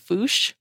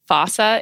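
First: It is one syllable ending in sh. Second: It has an ah vowel and ends in sa. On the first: This is the British pronunciation. "if you go to Britain, the pronunciation is the Fush, like with an H" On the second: This is the American pronunciation. "That's more of the American way to say it"

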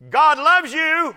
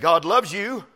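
First: It is said a little more loudly. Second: It is said at a normal speaking volume.

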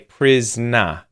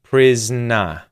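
Both takes have the same delivery.

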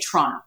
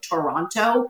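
First: The word is said fast with syllables run together. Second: The word is said slowly with every syllable clear. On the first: This is how locals say the name. "We all say Toronto. Like we just kind of run it really fast" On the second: This is how outsiders say the name. "Most people consider my city to be called Toronto"

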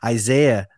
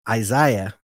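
First: It is said the American way. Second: It is said the British way.

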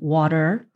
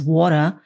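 First: It is said with a neutral standard accent. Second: It is said with a strong New York accent. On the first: "instead of water" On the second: "the native New Yorker ... says water"

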